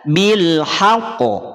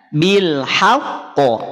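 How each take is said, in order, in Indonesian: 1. Qaf langsung dipantulkan tanpa ditahan. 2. Qaf ditekan dan ditahan, lalu dipantulkan.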